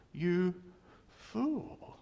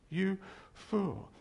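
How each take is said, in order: First: "fool" pitched high and stretched out, rising at the end; Jesus rebuking, high. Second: Said in the usual way. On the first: Retold or imitated. Preacher voicing Jesus at the rich man, high mocking rebuke. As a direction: fling "fool" up high in mock disbelief. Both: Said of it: "And Jesus goes".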